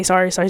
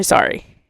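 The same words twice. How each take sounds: First: Said in the usual way. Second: A breathless, whispered sorry trailing off. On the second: Shown as a demonstration. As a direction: barely whisper the word sorry. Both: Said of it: "I always had to say sorry".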